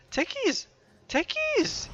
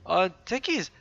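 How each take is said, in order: First: Techies yelled much higher, each time higher; exasperated yelling. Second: Said in the usual way. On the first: Real, not acted. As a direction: shout Techies in rising disbelief. Caster calls out missed kill.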